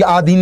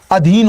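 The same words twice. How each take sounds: First: आधीन with a long, drawn-out first aa; wrong long vowel. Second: अधीन with a short, crisp first a; correct short vowel. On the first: Teacher shows students the wrong form, long aa in आधीन. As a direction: stretch the opening aa of आधीन. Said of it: "आधीन नहीं होता है". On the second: Teacher gives students the correct form, short a in अधीन. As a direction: clip the opening a of अधीन short. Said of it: "अधीन होता है". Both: Shown as a demonstration.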